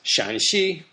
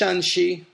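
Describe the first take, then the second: First: The first syllable has a low dipping tone. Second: Both syllables have a high level tone. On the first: "third tone Shan" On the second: "that's first tone, first tone"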